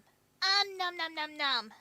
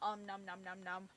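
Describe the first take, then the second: First: It is said in a put-on character voice. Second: It is said in the speaker's ordinary voice.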